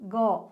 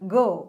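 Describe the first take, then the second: First: The vowel is clipped without a full 'oh' sound. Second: The vowel has a full, drawn-out 'oh' sound. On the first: The speaker calls it wrong. "ഗോ എന്ന് പറയരുത് കേട്ടോ" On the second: The speaker calls it right. "ആ ഓ എന്നുള്ളൊരു sound അവിടെ വരുന്നുണ്ട്"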